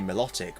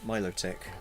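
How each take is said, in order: First: The start does not sound like Milo. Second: The start sounds like the word Milo. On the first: This is the speaker's habitual pronunciation. The speaker calls it wrong. "I'd say Milotic" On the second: This is the intended pronunciation. The speaker calls it right. "it's supposed to be Milo Milotic. Because it's like the Venus de Milo"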